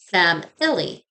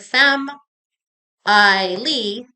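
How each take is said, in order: First: The unstressed vowel is reduced to a quick schwa. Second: Every syllable gets an equal, full, robotic beat. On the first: The speaker calls it right. "We pronounce it fam illy" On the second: The speaker calls it wrong. "we do not speak like robots in English. So the word femme I Lee would be incorrect"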